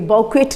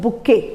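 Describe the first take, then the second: First: It starts with 'bou' and ends in 'ket'. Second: It starts with 'bu' and ends in 'kay'. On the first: The speaker calls it wrong. "बौकेट नहीं पढ़ना है" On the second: The speaker calls it right. "It is called बुके"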